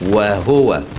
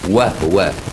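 First: A full u vowel follows the h sound. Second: There is no vowel after the h sound. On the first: "وبالضمة الخالصة" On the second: "بالسكون المحض"

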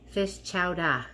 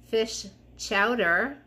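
First: It is said in a New England accent. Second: It is said without a New England accent.

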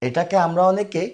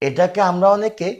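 No difference in how they are said.

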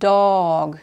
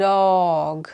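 Both takes have the same delivery.

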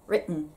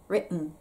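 The two takes are said the same way.

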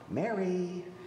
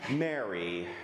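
First: The name is said in a gentle, rousing tone. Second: The name is said in a disappointed, let-down tone. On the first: He is waking a child for school. The speaker calls it right. "the parent waking up the child for school voice" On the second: Mary has let him down like a bad report card. The speaker calls it wrong. "There's the disappointed father voice"

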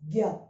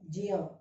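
First: It begins with a plain g sound. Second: It begins with a j sound, then ny. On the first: "We are giving it only with G sound" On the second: "We are not giving this Gya, Gya. That Nya and Ij sound we are not giving"

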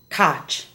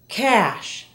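First: The word ends with a sharp ch sound. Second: The word ends with a soft sh sound. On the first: The speaker calls it wrong. "not cotch" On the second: The speaker calls it right. "Listen to the following SH words"

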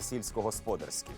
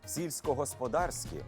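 First: The stress falls on the final syllable. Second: The stress falls on the syllable 'дар'. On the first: The speaker calls it wrong. "а не сільськогосподарські" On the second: The speaker calls it right. "І роботи сільськогосподарські"

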